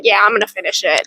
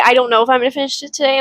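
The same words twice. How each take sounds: First: Matter-of-fact flip to certainty; mock confident self-quote. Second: Quick, half-hearted hedging; mock hesitant self-quote. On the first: Reader mocking her own quick decision, flat and sure. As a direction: state it plainly, decided. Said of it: "and then just go". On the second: Reader mocking her own hesitation, rushed. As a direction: rattle off the doubt quickly. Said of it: "I like how I say".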